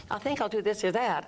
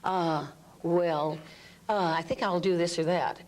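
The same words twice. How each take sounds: First: Higher, head-placed uncertain voice. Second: Unsure hedging voice; hesitant. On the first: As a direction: keep it up in the throat. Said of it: "I'm up here and I'm still feeling the uncertainty". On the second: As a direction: waver between choices. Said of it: "liberate the voice". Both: Shown as a demonstration.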